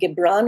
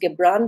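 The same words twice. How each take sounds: First: The name begins with a j sound. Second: The name begins with a hard g sound. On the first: This follows the Arabic pronunciation. "it can either be said Gibran" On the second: This is the American pronunciation. "the American pronunciation is Gibran"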